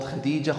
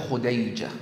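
First: Said in the usual way. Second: Khudayja, with an "ay" in the middle; derogatory name form. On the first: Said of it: "Khudayja is a derogatory term". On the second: Retold or imitated. Envious wife belittling Khadija's name, derogatory Khudayja form. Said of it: "is a derogatory term".

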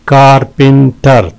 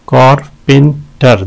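First: "कारपेंटर" in three beats; syllable breakdown. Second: "कारपेंटर" in three spaced beats; syllable breakdown. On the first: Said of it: "तीन है". ("कारपेंटर" तीन हिस्सों में) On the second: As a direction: pause between syllables of "कारपेंटर". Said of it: "दो हैं इसके". ("कारपेंटर" हिस्सों के बीच रुककर) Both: Shown as a demonstration.

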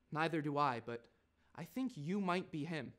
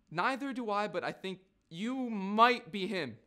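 First: Understated, lightly posh reply; posh little kid. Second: Mimicking the kid. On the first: Acted. Kid answering Nigel's denial, understated posh little voice. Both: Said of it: "listen to this. Then he go".

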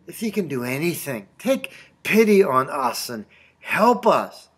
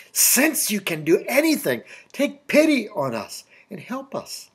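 First: A mildly weary, unsure appeal; desperate, tired plea. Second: Higher-pitched appeal, sure of the answer; confident plea. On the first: Retold or imitated. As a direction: plead without much confidence, lightly acted. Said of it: "he was desperate and tired". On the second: Acted. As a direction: ask as if certain he can. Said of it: "What if he'd said "since".

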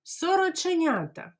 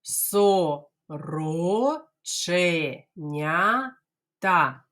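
First: Сороченята fast and much higher; teacher says Сороченята fast; quickly. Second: Сороченята very slow, syllables apart; teacher drills сороченята slowly. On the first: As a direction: toss it off quickly. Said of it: "А тепер швиденько". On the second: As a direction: drag out each syllable. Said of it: "Ану". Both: Shown as a demonstration.

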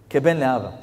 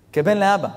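First: Said in the usual way. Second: כבן לאבא said louder and higher; emphatic repeat. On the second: Shown as a demonstration. (חזרה נרגשת ורמה על כבן לאבא) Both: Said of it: "כבן לאבא (repeated)".

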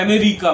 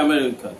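First: Said in the usual way. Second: আমেরিকা with the r curled back inside the mouth; American r. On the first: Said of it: "ওরা বলে আমেরিকা". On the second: Shown as a demonstration. Showing how Americans say America, mock American r. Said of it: "রটা ভেতরে থাকে".

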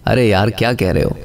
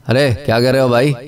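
First: Low, easy "अरे यार क्या कह रहे हो"; demonstrated tone, milder take. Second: Quick "अरे क्या कह रहे हो भाई", rising at the end; demonstrated tone, sharper take. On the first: Teacher showing tone changes meaning, milder take. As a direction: say it lower and unhurried, like a mild remark. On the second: Teacher showing tone changes meaning, quicker challenging take. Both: Shown as a demonstration. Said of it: "अल्फाज की tone जो है".

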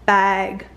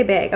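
First: Bag with an open short a, as in "cat"; other pronunciation of bag. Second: Bag with her usual raised vowel, toward "beg"; own way of saying bag. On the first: Shown as a demonstration. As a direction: say bag with a low, wide vowel. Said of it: "I'm never gonna say". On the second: Real, not acted. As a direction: say bag close to "beyg". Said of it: "that's the way I say bag".

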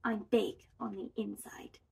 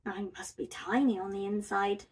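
First: Soft storybook whisper; hushed little secret. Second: Soft, mildly glum sigh; understated downcast bear. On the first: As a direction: confide it very softly. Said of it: "Little Bob whispered". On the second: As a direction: sigh it out quickly and softly. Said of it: "sighed Big Bob". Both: A narrator's reading.

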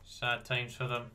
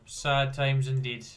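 First: Said in the usual way. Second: Slow, louder mock lament; mock solemn. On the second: Real, not acted. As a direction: drag it out in fake sorrow. Mock sympathy.

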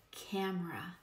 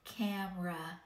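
First: Said in the usual way. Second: Camera said with pinched nose, buzzing first A; nasal first A in Camera, nose held; nose plugged. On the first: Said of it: "let's try the word". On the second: Shown as a demonstration. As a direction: pinch your nose and let Camera buzz. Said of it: "Plug your nose and say it".

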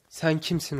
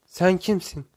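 First: Mild echo at near-narration level; echoed reply. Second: Called out a little higher and louder; narrator's raised voice for a shouted question; mild shout. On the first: Mountain returns the boy's question, understated echo. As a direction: hand the question back without shouting. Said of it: "ama aldığı tek yanıt". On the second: Boy calls to the unknown voice, mild shout. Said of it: "diye bağırır". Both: A narrator's reading.

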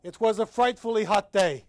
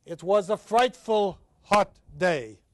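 First: Loud, brisk reading of "It was a frightfully hot day", stress on "was"; lively dramatic reading. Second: Slow, loud, each word of "It was a frightful hot day" weighed; slow measured reading. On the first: Professor performing Hemingway's narrator for the class, brisk and lively. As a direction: read it as the cheerful soldier telling it. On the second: Professor introducing the chapter's poem, slow and weighty. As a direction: read the title line slowly as if announcing it. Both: Shown as a demonstration. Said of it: "let's look at this poem".

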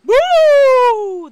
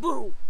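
First: Loud, high, drawn-out ghost boo; shriek. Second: Short, loud growled boo; Philip. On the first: Principal demonstrating real haunting to students, piercing shriek. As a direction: shriek it to scare everyone. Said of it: "the principal shrieked". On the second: Young ghost taking his turn to haunt, mild growl. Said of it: "Philip growled". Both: A narrator's reading.

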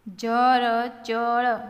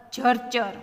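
First: Slow, letter by letter; sounded out. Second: Said in the usual way. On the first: Shown as a demonstration. Teacher modelling reading for learners, sounded out. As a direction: stretch જરચર into four open syllables.

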